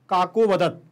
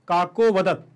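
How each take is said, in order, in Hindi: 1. 'vadat' से पहले का स्वर बस हल्का सा सुनाई देता है। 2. 'vadat' से पहले का स्वर बस हल्का सा सुनाई देता है।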